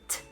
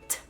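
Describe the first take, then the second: Both takes have the same delivery.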